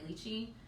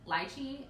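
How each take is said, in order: First: The word has an American pronunciation. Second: The word has a British pronunciation. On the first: "Americans, we say lychee" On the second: "British people pronounce it as lychee"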